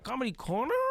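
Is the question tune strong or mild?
strong. It sounds like a strongly exaggerated question.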